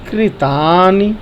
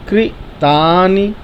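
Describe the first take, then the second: Both takes have the same delivery.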